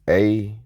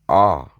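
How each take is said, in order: First: The vowel sounds like the one in apple. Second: The vowel is an open ah sound. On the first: It closes your free will. The speaker calls it wrong. "pronounce it as A, as in apple" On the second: It opens your free will. The speaker calls it right. "Ah is the original sound"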